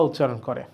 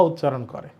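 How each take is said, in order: No difference in how they are said.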